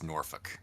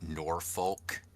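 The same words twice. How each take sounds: First: It uses the local regional pronunciation of the name. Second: It uses the non-local pronunciation of the name. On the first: The speaker calls it right. "it's just the way the regional pronunciation is" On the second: The speaker calls it wrong. "it's not Norfolk"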